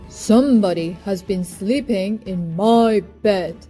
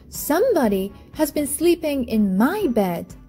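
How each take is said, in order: First: It is said in a great big voice. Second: It is said in a middle-sized voice.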